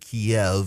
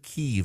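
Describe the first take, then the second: First: The name is said in the Russian form. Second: The name is said in the Ukrainian form. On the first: The name follows the form used by Russia. "that was the Russian pronunciation" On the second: The name recognizes Ukrainian sovereignty. "The Ukrainians said Kyiv"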